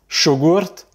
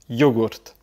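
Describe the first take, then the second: First: The word begins with a 'sh' sound. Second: The word begins with a 'y' sound. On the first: This is how it is said in Argentina. "le Y, il va se prononcer également ch" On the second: This is how it is said in Spain. "en Espagne, tu vas plutôt dire yo, yogurt"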